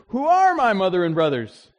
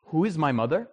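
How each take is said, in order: First: Louder, a firm rhetorical question falling at the end; Jesus' pointed question. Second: Said in the usual way. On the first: Retold or imitated. Preacher voicing Jesus to the crowd, firm and pointed. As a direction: put the question to the crowd with authority. Jesus quoted answering his family.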